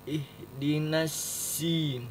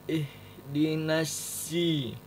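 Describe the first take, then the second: The two takes are said the same way.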